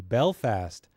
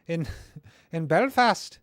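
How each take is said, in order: First: Said in the usual way. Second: Put-on slow, higher Belfast accent with a laugh breaking in; "Belfast" said slowly in a hammed-up Belfast accent, pitched high; mock Northern Irish accent. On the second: Host laughing at his own Belfast accent. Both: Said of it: "I'm no good at doing accents".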